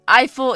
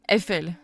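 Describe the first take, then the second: First: The name is pronounced the English way. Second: The name is pronounced the French way. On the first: The speaker calls it wrong. "Eiffel is only the English pronunciation" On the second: The speaker calls it right. "The actual pronunciation of Eiffel is Eiffel"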